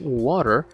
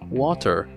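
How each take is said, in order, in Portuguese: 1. Sotaque americano, o t soa como um r rápido. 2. Sotaque britânico, o t é um som de t claro. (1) "Um americano falaria basicamente assim" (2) "enquanto um britânico falaria"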